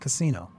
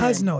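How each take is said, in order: First: The name is said with three syllables. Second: The name is said with two syllables. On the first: The speaker calls it wrong. "Why did I always say Warren Casino?" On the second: The speaker calls it right. "That's how you pronounce that"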